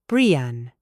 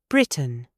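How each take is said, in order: First: The T is a glottal stop. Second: The T is fully released.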